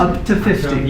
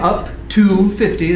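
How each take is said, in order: First: The word to is reduced to ta. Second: The word to is said fully, like two. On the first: "But in normal speech we say ta" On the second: "So this is that two, right? We can say up to fifty, that's fine"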